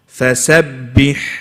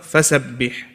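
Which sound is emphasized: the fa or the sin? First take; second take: sin; fa. First: The emphasis falls on the sin, fa kept separate. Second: The emphasis falls on the fa, joined to the word. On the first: The speaker calls it right. "we emphasize on the sin and not the fa" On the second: The speaker calls it wrong.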